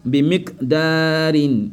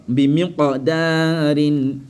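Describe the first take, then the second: First: "Bi miqdarin" slow, stopped k, long daa; without qalqala. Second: "Bi miqdarin" slow, echoed q, mi-qo-daarin; qalqala. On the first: Teacher shows it sans qalqala, slow recitation. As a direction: chant "Bi miqdarin" slowly, no echo after mik. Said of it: "Sans qalqala". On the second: Teacher shows it avec qalqala, slow recitation. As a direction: chant "Bi miqdarin", bouncing the q, stretching daa. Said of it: "Mais avec qalqala". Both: Shown as a demonstration.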